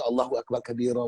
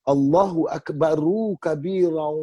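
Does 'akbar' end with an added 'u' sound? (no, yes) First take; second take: no; yes. First: Akbar ends on r with no added vowel. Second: Akbar ends with an added u vowel. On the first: The speaker calls it wrong. "Dulu saya baca" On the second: The speaker calls it right. "kita kena sebut dengan betul, dengan jelas"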